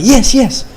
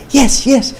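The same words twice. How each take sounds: First: High, chirpy mock "Yes, yes" again with the same lift; imitating her broken English. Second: High, chirpy mock "Yes, yes" of the woman from China; imitating her broken English. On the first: Man retells her eager reply in a high mock voice. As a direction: squeak out "Yes, yes" like the eager girl. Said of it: "half Chinese, half Vietnamese". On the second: Man mimics the girl he courted, high squeaky mock voice. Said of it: "her broken English".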